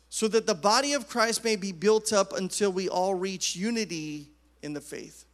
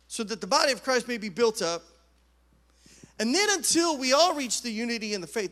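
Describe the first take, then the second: First: It runs on with no pause after "built up". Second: There is a pause after "built up".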